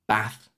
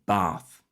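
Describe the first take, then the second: First: The vowel is a short A sound. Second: The vowel is a long A sound. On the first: This is how northerners say it. "northern accents shortening them" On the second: This is how southerners say it. "southern accents typically having a long A"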